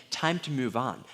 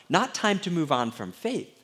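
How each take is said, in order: First: Said in the usual way. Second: Not time said higher and a bit louder, rising at the end; stress on Not. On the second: Shown as a demonstration. Pastor clarifying doubt to the congregation, stress on Not. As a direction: lean on Not to correct the quote.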